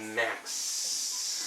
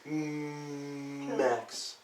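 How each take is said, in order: First: The opening M sound is short and plain. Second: The opening M sound is drawn out and stressed. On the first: The speaker calls it right. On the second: The speaker calls it wrong.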